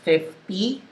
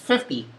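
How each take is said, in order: First: It is said slower, with a Filipino accent. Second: It is said faster, with an American accent. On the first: "The Taglish version is fifty" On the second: "The English version is fifty. It's a little faster"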